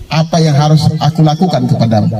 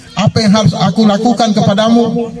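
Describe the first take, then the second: First: Said in the usual way. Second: High-pitched testing question; emphatic question. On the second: Retold or imitated. Jesus testing the beggar's honesty, emphatic high question. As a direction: ask it in a markedly raised pitch.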